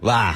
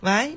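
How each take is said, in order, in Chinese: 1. 结尾音调短而平，降下去。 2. 结尾音调升起来。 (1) "中年人……他就是直接喂" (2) "这是年轻人的那个气息"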